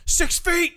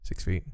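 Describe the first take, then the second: First: High, loud shout; shouted sign-off. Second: Said in the usual way. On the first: Real, not acted. Cohost closing the podcast with a shouted reminder.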